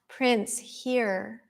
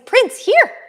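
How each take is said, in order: First: The call sounds casual and lacks command. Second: The call sounds firm and commanding. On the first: The dog does not feel called. The speaker calls it wrong. "he's not going to come" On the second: The dog feels called and comes. The speaker calls it right. "he's right by my side"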